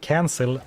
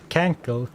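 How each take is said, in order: First: The second c is said as an S. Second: The second c is said as a K.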